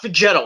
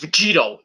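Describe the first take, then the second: First: The second vowel sounds like 'eh'. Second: The second vowel sounds like 'ee'. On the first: The speaker calls it wrong. "not Vegeto" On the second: The speaker calls it right. "It's Vegito"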